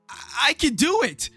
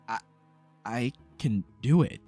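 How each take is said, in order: First: It is said loudly and forcefully. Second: It is said quietly and hesitantly.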